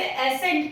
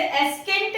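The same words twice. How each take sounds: First: एसेंट with a plain s and no k sound; teacher giving the correct एसेंट, c silent; right pronunciation. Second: एस्केंट with a hard k sound after the s; teacher sounding out the mistaken एस्केंट, k spoken; wrong pronunciation. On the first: Teacher to students, giving the correct silent-c एसेंट. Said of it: "हम इसे एसेंट पढ़ रहे हैं". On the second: Teacher to students, showing the wrong way: hard k in एस्केंट. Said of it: "हम इसे एस्केंट नहीं पढ़ रहे हैं". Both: Shown as a demonstration.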